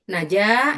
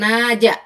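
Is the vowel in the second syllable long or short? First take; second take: long; short. First: The second syllable has a long vowel. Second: The second syllable has a short vowel. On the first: The speaker calls it right. "janya yang panjang" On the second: The speaker calls it wrong. "bukan naja"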